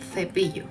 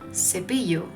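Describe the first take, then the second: First: The c is pronounced like an English th. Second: The c is pronounced like an s sound. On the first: The speaker is from Spain. "instead of" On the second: The speaker is from Latin America. "Since I am Colombian, you'll hear me saying"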